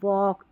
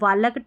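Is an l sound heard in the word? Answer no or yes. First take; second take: no; yes. First: No l sound is heard before the k. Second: An l sound is heard before the k. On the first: The speaker calls it right. "हम वॉक" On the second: The speaker calls it wrong. "हम वालक ... नहीं पढ़ते"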